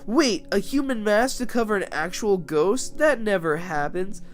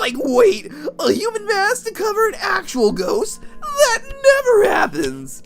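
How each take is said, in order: First: It is said in the speaker's own voice. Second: It is said in an imitation of Shaggy's voice.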